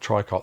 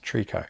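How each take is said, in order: First: The word is said with an anglicized pronunciation. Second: The word is said with a French pronunciation. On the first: The speaker calls it wrong. "what I pronounce as tricot stitch" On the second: The speaker calls it right. "how tricot is actually pronounced"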